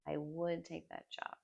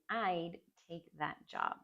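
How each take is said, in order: First: I and would are said as separate full words. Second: I would is joined into one short syllable.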